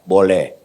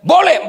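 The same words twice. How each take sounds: First: The word is said at half voice. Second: The word is shouted loudly.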